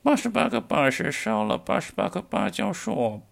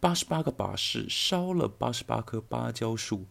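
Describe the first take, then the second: First: It is said in a changed, put-on voice. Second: It is said in the speaker's natural voice.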